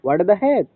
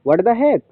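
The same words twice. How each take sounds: No difference in how they are said.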